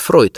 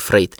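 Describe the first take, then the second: First: The name is said with an 'oy' vowel. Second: The name is said with an 'ey' vowel. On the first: The speaker calls it right. "Точнее, произносить Фройд" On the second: The speaker calls it wrong. "а не Фрейд"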